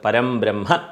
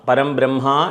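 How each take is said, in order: First: The final vowel of brahma is kept short. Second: The final vowel of brahma is drawn out long. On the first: The speaker calls it right. "അവിടെ ദീർഘം ഇല്ല" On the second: The speaker calls it wrong. "പരം ബ്രഹ്മ എന്ന് പറയരുത്"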